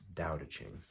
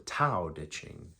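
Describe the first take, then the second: First: It starts with a soft D sound. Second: It starts with a hard T sound. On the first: This is the intended pronunciation. The speaker calls it right. "I think it's supposed to be pronounced" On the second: This is the spelling-based pronunciation. The speaker calls it wrong. "some people even call it the Tao Te Ching, like it's printed here"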